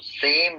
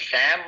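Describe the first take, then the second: First: The vowel is a closer 'e' sound. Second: The vowel is an open 'ae' sound. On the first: The speaker calls it right. "सेम बोलो" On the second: The speaker calls it wrong. "ये सैम मत बोलो"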